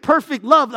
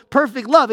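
First: "perfect" stressed ahead of "love". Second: "love" stressed after "perfect". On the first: Preacher singling out a word for the congregation, "perfect" emphasized. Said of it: "I wanna emphasize the word perfect". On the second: Preacher adding that the second word is crucial, "love" emphasized. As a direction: land the weight on the word "love". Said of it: "the word love there is also crucial". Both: Shown as a demonstration.

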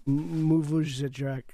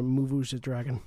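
First: "move" drawn out into "moo-voozh"; stretched "moo-voozh", ending short on "drak"; mock-Dwarvish wording. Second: "move" said as "moo-voozh"; low "moo-voozh", then a full "dragon"; mock-Dwarvish wording. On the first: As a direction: say "move the drag-" slowly as "moovoozh-uh drak". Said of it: "back of this wagon would say". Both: Shown as a demonstration.

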